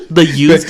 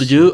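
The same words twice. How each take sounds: First: "use" said as yooz with a clear y. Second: "Jew" said as joo, hard j. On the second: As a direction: say "The Jew?" with a j sound. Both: Shown as a demonstration. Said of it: "The Jews".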